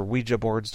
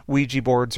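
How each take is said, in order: First: Ouija said WEE-juh, ending in uh. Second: Ouija said WEE-jee, ending in ee. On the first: Host offering the other pronunciation, Ouija said WEE-juh. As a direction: pronounce Ouija with a final "juh" sound. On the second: Host listing occult items for listeners, Ouija said WEE-jee. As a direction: pronounce Ouija with a final "jee" sound. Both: Shown as a demonstration. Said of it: "depending on how you pronounce it".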